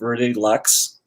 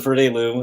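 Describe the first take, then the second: First: The final x sound is pronounced. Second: The final x sound is silent. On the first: The speaker calls it wrong. "a lot of people are still saying" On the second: The speaker calls it right. "when everyone says"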